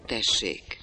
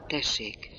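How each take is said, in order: First: Said in the usual way. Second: A touch softer, anxious; anxious, quiet. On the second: A narrator's reading. Kaja answering the stern builder, anxious and quiet. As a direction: answer him timidly under your breath. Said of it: "szorongva halkan".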